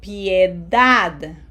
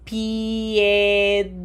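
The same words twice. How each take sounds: First: Piedad more joined up, as pye-DAD, DAD louder; stress on last syllable. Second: Piedad stretched slowly into pi-e-DAD; each vowel pronounced. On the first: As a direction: say Piedad smoothly, punching the final DAD. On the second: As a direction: hold the i and e of Piedad separately, on a level pitch. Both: Shown as a demonstration. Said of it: "We have to pronounce each vowel".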